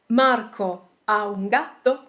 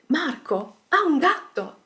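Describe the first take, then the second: First: "Marco ha un gatto" rising at "gatto"; question intonation. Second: "Marco ha un gatto" higher, falling at "gatto"; statement intonation. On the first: Teacher gives example question, rising intonation on "gatto". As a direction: ask it, lifting the end of "gatto". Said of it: "we can quickly turn these questions". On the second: Teacher turns question into statement, falling intonation on "gatto". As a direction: state it as fact, dropping on "gatto". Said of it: "simply changing the intonation". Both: Shown as a demonstration.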